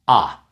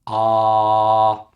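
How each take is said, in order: First: The vowel is held only briefly. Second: The vowel is held for a long time. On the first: "it's short" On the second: "so make it longer"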